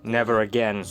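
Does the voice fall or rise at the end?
fall. The voice falls at the end.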